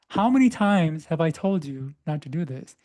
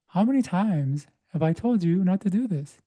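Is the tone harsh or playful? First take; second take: harsh; playful. First: It is said in a harsh, scolding tone. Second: It is said in a playful, fun tone.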